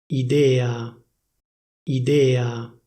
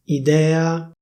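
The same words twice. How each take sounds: First: "Idea" with a closed E, idéa; "Idea" the Milan way, closed E; Milanese closed e. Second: "Idea" with an open E, idèa, a bit higher; "Idea" standard open E; official open e. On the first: Showing viewers Milanese "Idea", closed E. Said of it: "come viene pronunciata a Milano". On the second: Showing viewers standard "Idea", open E. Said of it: "prima ti dico la pronuncia ufficiale". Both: Shown as a demonstration.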